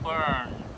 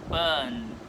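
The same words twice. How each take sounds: First: The vowel is colored with an R sound. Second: The vowel is flat with no R sound. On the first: "not burn" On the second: "the second would be burn"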